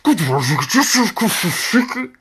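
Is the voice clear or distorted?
distorted. The voice is garbled like a bad intercom.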